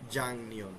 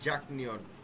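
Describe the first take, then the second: First: An ng sound comes before 'nyeon'. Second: A k sound comes before 'nyeon'. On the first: "উচ্চারণ হবে জাংনিয়ন" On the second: "লেখক লিখিত ফর্ম হবে জাকনিয়ন"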